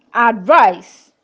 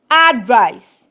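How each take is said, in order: First: "advice" said like the verb: ad-VICE; stress on second syllable. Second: "Advice" as a noun: AD-vice; stress on first syllable. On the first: Teacher contrasting verb with noun, "advice" stressed on the second syllable. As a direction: lighter ad, weight on VICE in "advice". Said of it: "As a verb". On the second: Teacher contrasting noun with verb, "Advice" stressed on the first syllable. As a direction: hit AD in "Advice", then fall. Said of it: "As a noun". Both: Shown as a demonstration.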